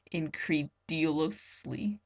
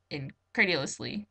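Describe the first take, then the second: First: "Incredulously" said slowly and haltingly as in-cree-dih-LOH-slee, vowels garbled; stumbling mispronunciation. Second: "Incredulously" said properly as in-CRED-yuh-lus-lee with a light rise; corrected pronunciation. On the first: Reader tripping over a big word, slow botched "Incredulously". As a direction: sound out "Incredulously" wrongly, slow and unsure, like in-cree-di-lo-sly. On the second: Reader fixing her stumble, "Incredulously" said correctly. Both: Shown as a demonstration. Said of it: "Ah, that's a big word".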